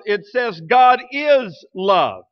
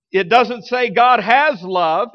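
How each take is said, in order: First: Slow, pressing is in "God is love"; stress on is. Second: Slow, leaning on has in "God has love"; stress on has. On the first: Preacher corrects has with is for the church, slow and emphatic. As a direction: land hard on is as the truth. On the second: Preacher sets has against is for the church, slow and pointed. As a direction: hit has as the wrong idea. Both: Shown as a demonstration.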